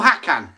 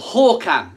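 First: The name is said in an anglicized way. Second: The name is said in the native Swedish way. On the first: The speaker calls it wrong. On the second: The speaker calls it right.

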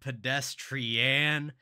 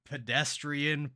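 First: The stress falls on an unusual syllable. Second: The word has its usual stress pattern. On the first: "Just stressing different syllables" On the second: "Instead of pedestrian"

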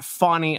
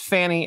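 First: The first vowel sounds like in 'fawn'. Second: The first vowel sounds like in 'fan'. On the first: The speaker calls it wrong. "It's not Fawny. There is no W in that" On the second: The speaker calls it right. "it's Fannie"

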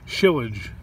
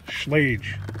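First: A vowel is inserted between the sh and l. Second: The sh runs straight into the l. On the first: This is how it was said as a child. The speaker calls it wrong. "I could never pronounce this word when I was younger. I used to say it shillage" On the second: This is how it is actually said. The speaker calls it right. "I guess it's schlage"

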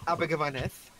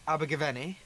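First: The name ends with a th sound. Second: The name ends with an ee sound. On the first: The speaker calls it wrong. "I know that was a horrible pronunciation" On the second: The speaker calls it right. "There's literally no TH at the end"

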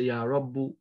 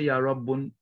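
First: The word ends on a vowel, no n. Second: The word ends with an added n sound. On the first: The speaker calls it right. "You say Ya Rabbu ... it drops the Tanween" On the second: The speaker calls it wrong. "You don't say Ya Rabbun"

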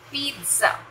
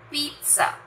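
First: The middle consonant is a ts sound. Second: The same.

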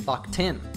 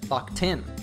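First: The ED is reduced and linked to the next word. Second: The same.

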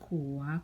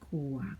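First: The word is said with a rising tone. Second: The word is said with a low tone.

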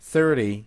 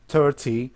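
First: The t sounds like a soft d, American style. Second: The t is pronounced as a clear t sound.

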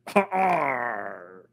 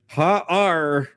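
First: It is read in a put-on villain character voice. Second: It is read in a plain, normal voice. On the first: The speaker calls it right. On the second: The speaker calls it wrong.

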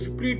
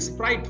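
First: The vowel is short, like in 'it'. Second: The vowel is long, like in 'ice'. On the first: The speaker calls it wrong. "कई लोग इसको स्प्रिट बोल देते हैं" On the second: The speaker calls it right. "ये स्प्राइट होता है"

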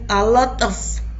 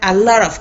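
First: The T in lot is a clear T. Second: The T in lot sounds like a soft R. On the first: The speaker calls it wrong. "no sonaría tan bien a lot of" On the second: The speaker calls it right. "esta T suena más bien como R"

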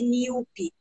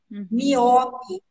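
First: The stress is on the first syllable. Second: The stress is on the second syllable. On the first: The speaker calls it right. "apesar do acento estar lá" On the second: The speaker calls it wrong. "miope ao invés de míope"

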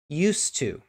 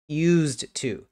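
First: The D sound at the end of 'used' is silent. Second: The D sound at the end of 'used' is heard. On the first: "listen to how I say it. The D is pretty much not there" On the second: "It looks like used to"

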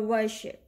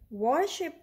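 First: The first vowel sounds like 'er'. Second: The first vowel sounds like 'or'. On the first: The speaker calls it right. "So let's pronounce it like this" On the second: The speaker calls it wrong. "no, it doesn't sound correct"

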